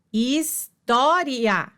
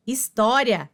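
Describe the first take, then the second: First: "história" slowly, his-tó-ria; divisão silábica. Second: Said in the usual way. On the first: Shown as a demonstration. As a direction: break "história" into syllables, keeping ria whole. ("história" devagar, sílaba por sílaba) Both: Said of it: "semivogal mais vogal na mesma sílaba".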